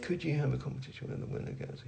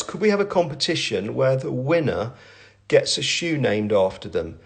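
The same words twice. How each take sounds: First: Reads it under his breath, fast; quiet mutter. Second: Said in the usual way. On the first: Real, not acted. Founder skimming a viewer's question to himself, muttered. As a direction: skims the question half to himself. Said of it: "we're gonna go with". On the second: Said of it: "who says".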